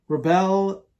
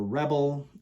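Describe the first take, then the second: First: "Rebel" with the stress on the second syllable, ruh-BELL; reBEL pronunciation. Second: "Rebel" with the stress on the first syllable, REB-ul; REbel pronunciation. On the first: Reviewer trying out one way to say the fragrance name, "Rebel" stressed on BEL. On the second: Reviewer trying the other way to say the fragrance name, "Rebel" stressed on REB. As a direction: say "Rebel" like the ordinary word, REB-ul. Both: Shown as a demonstration. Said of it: "Is either Rebel or Rebel?".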